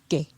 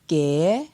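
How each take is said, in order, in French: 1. La syllabe est prononcée sur un ton bas. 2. La syllabe est prononcée sur un ton montant. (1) "Pour un ton bas" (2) "Pour un ton montant"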